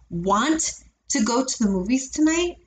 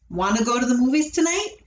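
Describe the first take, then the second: First: The T sounds in 'want to' are fully pronounced. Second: The T sounds in 'want to' are dulled or dropped. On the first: The speaker calls it wrong. "I wouldn't say" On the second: The speaker calls it right. "I would say ... see how my T's get dulled or they disappear completely"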